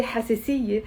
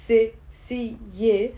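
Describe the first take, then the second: First: Said in the usual way. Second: حساسية in separate syllables, ha, se, si, ye; broken down. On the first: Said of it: "and then I say". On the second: Shown as a demonstration. Teacher breaking the word down, syllable by syllable. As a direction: pause after each syllable of حساسية. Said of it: "when I break it down".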